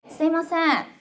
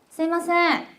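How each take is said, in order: The two takes are said the same way.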